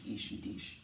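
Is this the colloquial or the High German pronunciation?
colloquial. It is said in relaxed everyday colloquial speech. "usually when you speak it, there's ich and dich"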